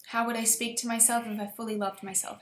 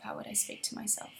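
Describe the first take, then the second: First: Said in the usual way. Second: A whispered echo of the question. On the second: Shown as a demonstration. Repeating it to herself in a whisper. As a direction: let it fall to a breath, as if inward.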